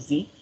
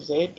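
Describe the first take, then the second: First: The letter is said the American way, 'zee'. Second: The letter is said the British way, 'zed'.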